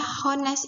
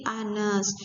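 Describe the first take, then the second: First: "hones" with a sounded H at the start; H pronounced. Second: "anes" drawn out slowly with no H; silent H. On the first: Teacher showing what is not read, "hones" with audible H. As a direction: wrongly voice the H in "hones". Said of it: "dibaca hones itu gak". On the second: Teacher correcting the reading, slow "anes" with silent H. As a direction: open "anes" straight on a long vowel. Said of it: "karena H ini tidak dibaca". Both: Shown as a demonstration.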